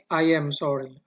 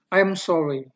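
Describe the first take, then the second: First: I and am are said as two syllables. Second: I am is contracted into one syllable. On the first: "agak panjang sedikit" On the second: "singkatan dari kata yang ini"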